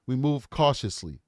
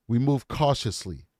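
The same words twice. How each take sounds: The two takes are said the same way.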